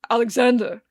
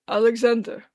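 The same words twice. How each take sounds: First: Put-on louder drunken call of the name "Alexander". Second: Hoarse, slurred stranger calling a name; raspy drunk voice. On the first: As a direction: bellow "Alexander" at him. Drunk man calls out insistently. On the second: Acted. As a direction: rasp it out like a drunk. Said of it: "a raspy voice that Arthur's never heard".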